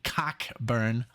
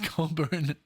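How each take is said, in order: First: The name is said with a clear 'ck' and 'b'. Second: The name is said like 'Coe-burn', without 'ck'. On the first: The speaker calls it wrong. "It's not, it's not pronounced that way" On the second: The speaker calls it right. "it's Colburn, uh, pronounced Colburn"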